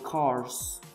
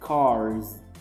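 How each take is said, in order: First: The word ends with a voiceless s sound. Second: The word ends with a buzzing z sound. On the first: The speaker calls it wrong. "It is not seeds, plums, moves, or cars" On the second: The speaker calls it right. "So we have to make it like zzz, with a vibration in your throat"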